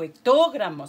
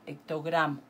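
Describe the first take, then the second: First: The stress falls on the syllable 'to'. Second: The stress falls on the syllable 'gra'. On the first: The speaker calls it wrong. "No digo hectogramo" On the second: The speaker calls it right. "sino hectogramo"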